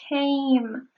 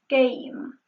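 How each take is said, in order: First: The K has a puff of air after it. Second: The K has no puff of air after it. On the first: The speaker calls it right. "we have to say came" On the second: The speaker calls it wrong. "She said came. That is wrong"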